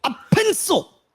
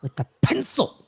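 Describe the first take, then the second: First: Laughing, much higher. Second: A touch higher, mock awe; echoed quote. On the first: Retold or imitated. Fan cracking up while repeating the pencil line. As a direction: squeal it out through a laugh. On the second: Fan repeating the pencil line with mock awe. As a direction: savor the absurd detail. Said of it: "I once saw him kill three men".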